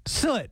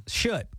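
First: "Soot" with a clean s, rhyming with foot, pitched higher; corrected pronunciation. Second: "soot" said with a sh start, like "shoot"; unsure pronunciation. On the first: Co-host retrying the word for ceiling marks, corrected pronunciation. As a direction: hit "Soot" high with a crisp s and short vowel. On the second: Co-host groping for the word for ceiling marks, hesitant mispronunciation. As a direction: try "soot" but let it come out as "shoot". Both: Real, not acted. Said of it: "Am I saying it right?".

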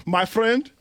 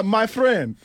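First: Light Nigerian accent on "my friend". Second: Put-on "my friend" high and loud in a Nigerian accent. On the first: Shown as a demonstration. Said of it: "that's how you say it". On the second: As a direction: greet "my friend" like a Nigerian dad. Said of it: "my Nigerian father used to say".

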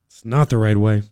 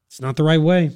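First: "It's not the right way" dropped much lower, weight on "not"; lower, firmer repeat. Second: Said in the usual way. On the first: Shown as a demonstration. Host rebuking teachers over pay, repeating it lower and firmer. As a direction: say it again lower and flatly final, leaning on "not".

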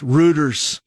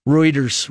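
First: "Reuters" said as ROO-ders; mispronunciation. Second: "Reuters" said as ROY-ders; correct pronunciation. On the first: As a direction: say "Reuters" with a long oo, like rooters. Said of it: "the fact that I mispronounced". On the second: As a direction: say "Reuters" with an oy vowel. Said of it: "I called it Reuters, Reuters". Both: Shown as a demonstration.

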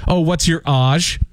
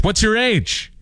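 First: 'age' as AHZH, slowly; mock pronunciation. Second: 'age' as AYJ, high and falling; corrected pronunciation. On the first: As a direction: say 'age' to rhyme with garage's ahzh. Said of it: "I don't say". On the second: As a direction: say 'age' with long a and j. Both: Shown as a demonstration.

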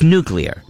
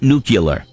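First: Nuclear with a clear "klee-er" ending; correct nuclear. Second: Nuclear with the wrong "kyuh-ler" ending; mispronounced nuclear. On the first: Host correcting the common error, nuclear said "NOO-klee-er". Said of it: "look at the spelling of the word". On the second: Host showing listeners the error, nuclear said as "nucular". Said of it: "it's not nuclear". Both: Shown as a demonstration.

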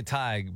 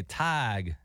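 First: Said in the usual way. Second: Slow, drawn-out Southern "Tig"; Blake's Southern accent. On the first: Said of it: "I say Tig, but Blake would say". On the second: Retold or imitated. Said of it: "but Blake would say Tig".

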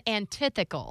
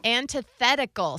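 First: Antithetical said an-ti-THEE-cal, a syllable dropped; mock her own old antithetical, THET missing; wrong pronunciation. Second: Antithetical said an-ti-THET-i-cal, full syllables; correct pronunciation. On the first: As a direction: antithetical swallowed into four syllables. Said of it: "that's different than antithetical". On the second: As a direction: repeat Antithetical exactly as the dictionary says it. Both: Shown as a demonstration.

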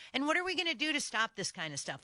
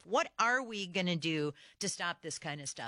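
First: Higher and fast, fired off in exasperation; exasperated outburst. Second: Said in the usual way. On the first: Real, not acted. Radio host venting at listeners, exasperated and fast. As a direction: rattle it off like you can't believe it. Host's outraged rhetorical question.

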